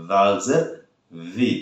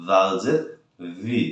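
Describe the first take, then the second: Both takes have the same delivery.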